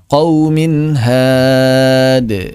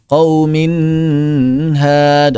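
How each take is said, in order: First: The n sound is short, without held nasalization. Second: The n sound is held long with extra nasalization. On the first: The speaker calls it right. "Seperti itu" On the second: The speaker calls it wrong. "tidak ditambah seperti itu"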